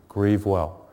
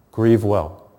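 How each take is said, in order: First: Softer, tender farewell; gentle blessing. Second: Said in the usual way. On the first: Shown as a demonstration. Priest gently blessing those who lost a loved one, softly. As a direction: say it softly, like a prayer. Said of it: "I pray for you". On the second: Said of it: "don't think that you're strange".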